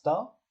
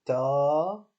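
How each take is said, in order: First: Short "Ta" with a brief vowel; "Ta" cut short, not prolonged; short syllable. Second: "Ta" with a long held vowel, louder; prolonged "Ta", strongly voiced; long syllable. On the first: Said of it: "une question de syllabes courtes". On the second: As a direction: stretch the vowel of "Ta". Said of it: "syllabes courtes et syllabes longues". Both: Shown as a demonstration.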